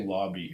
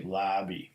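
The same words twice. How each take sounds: First: "lobby" with an open ah, LAH-bee; "lobby" rhymes with "hobby". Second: "lobby" with a flat a, LAB-ee; "lobby" with the vowel of "cat". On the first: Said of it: "it would say lobby". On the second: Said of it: "It wouldn't say lobby". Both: Shown as a demonstration.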